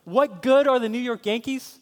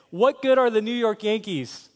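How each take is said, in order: First: Indignant echo, high and loud, rising at the end; Kenneth Maresco. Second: Higher, louder scornful challenge; mocking taunt. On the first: Acted. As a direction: throw the insult back as a worked-up fan. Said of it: "he's getting passionate about it". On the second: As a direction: taunt a fan about the team. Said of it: "if I began to mock".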